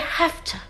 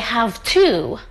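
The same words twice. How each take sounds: First: Have to is reduced to hafta, with an f sound. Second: Have to is said in full, with a v sound. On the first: The speaker calls it right. "Say have to" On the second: The speaker calls it wrong. "We don't say have to"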